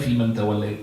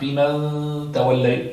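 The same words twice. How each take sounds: First: The n is said plainly without a held nasal. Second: The n is hidden with a held nasal sound. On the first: The speaker calls it right. "تولني في من توليت" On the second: The speaker calls it wrong. "Not في من توليت"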